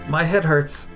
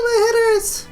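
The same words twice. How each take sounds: First: It is said in a normal voice. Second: It is said in a girly voice.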